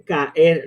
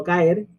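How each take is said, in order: First: CAER split slowly into ca-er; hiatus. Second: CAER run together as one syllable; wrong diphthong. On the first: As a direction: say caer in two separate syllables. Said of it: "no caer". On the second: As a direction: say caer in a single glided beat. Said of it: "siempre se forma un hiato". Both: Shown as a demonstration.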